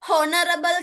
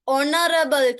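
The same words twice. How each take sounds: First: "Honorable" with the H wrongly pronounced; sounded H. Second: "honorable" opening directly on the O vowel; silent H. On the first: Teacher showing what we don't say, H sounded. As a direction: put an audible H on "Honorable". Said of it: "කියන්නේ නැහැ". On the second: Teacher showing pupils what we do say, silent H. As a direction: leave the H of "honorable" unspoken. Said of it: "අපි කියන්නේ honorable කියලා". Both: Shown as a demonstration.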